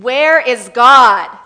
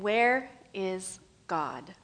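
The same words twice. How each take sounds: First: It is asked very sternly and loudly. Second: It is asked in a calm, plain voice.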